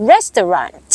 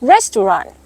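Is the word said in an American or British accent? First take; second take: American; American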